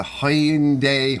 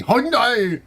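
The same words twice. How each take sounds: First: Hyundai stretched slowly into long syllables; drawn-out Hyundai. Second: Hyundai called out high and loud; exaggerated, high-pitched shout of "Hyundai"; hammed-up Hyundai. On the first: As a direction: draw out each part of "Hyundai". Says car name two ways. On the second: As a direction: punch "Hyundai" out as one high, loud cry. Repeats car name, hammed up. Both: Shown as a demonstration.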